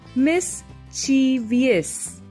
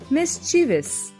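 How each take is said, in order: First: The word uses the common nonstandard pronunciation. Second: The word uses the standard dictionary pronunciation. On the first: The speaker calls it wrong. "most of the time wrongly pronounced as mischievous" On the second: The speaker calls it right. "it should be pronounced as mischievous"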